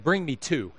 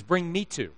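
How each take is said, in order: First: Said in the usual way. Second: "me" stressed in "Bring me two". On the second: Retold or imitated. Rival diner copying the order, stress on "me". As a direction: lean on "me", claiming the same order. Friend one-ups the same order.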